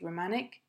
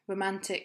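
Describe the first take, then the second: First: The t sound after n is left out. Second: The t sound after n is clearly pronounced.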